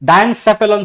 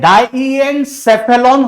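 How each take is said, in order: First: It is said fast, with syllables run together. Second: It is said slowly, every syllable clear. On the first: "थोड़ा fast पढ़ते हैं" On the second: "थोड़ा सा सावधानी से पढ़ना"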